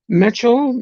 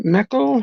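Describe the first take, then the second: First: "Mecho" with a CH sound, pitched up; trying a pronunciation. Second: "Meko" with a hard K sound, pitched up; tentative "Meko" with K instead of CH; alternative pronunciation. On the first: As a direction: sound out "Mecho" as METCH-oh, unsure. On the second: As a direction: sound out "Meko" as MECK-oh, unsure. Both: Real, not acted. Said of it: "how we say that?".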